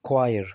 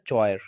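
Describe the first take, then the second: First: The word begins with a 'kw' sound. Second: The word begins with a 'ch' sound. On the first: The speaker calls it right. "तो इसको हम पढ़ेंगे क्वायर" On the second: The speaker calls it wrong. "ज़ाहरी तौर पर तो ये आपको दिखाई देगा चॉयर ... पर ऐसा नहीं है"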